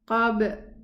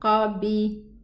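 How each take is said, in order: First: The final b bounces with no vowel after it. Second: The final b is followed by a short i vowel. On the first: The speaker calls it right. "open the lips, part the lips in its place. Don't move the, the jaw" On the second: The speaker calls it wrong. "If I say qabi, then it's a kasra"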